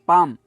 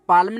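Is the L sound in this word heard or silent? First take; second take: silent; heard. First: The L sound is silent in the word. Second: The L sound is pronounced in the word. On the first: The speaker calls it right. "एल silent है" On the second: The speaker calls it wrong. "पाम पाल्म नहीं होता"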